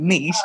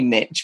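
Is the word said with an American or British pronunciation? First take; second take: British; American. First: It is said with a British pronunciation. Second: It is said with an American pronunciation. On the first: "we say niche" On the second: "if I was American, I'd say ... we don't say niche"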